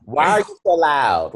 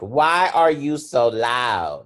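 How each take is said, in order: First: Higher, louder accusing question. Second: Slow drawn-out question. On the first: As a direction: fire it at them loudly. Mocking how people ask it. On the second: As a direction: stretch each word out slowly. Same line taken again slowly. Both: Retold or imitated.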